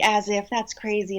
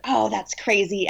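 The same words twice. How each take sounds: First: Said in the usual way. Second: Dismissive grandma. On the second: Retold or imitated.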